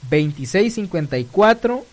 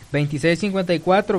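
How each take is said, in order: First: It is said slowly. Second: It is said at normal speed.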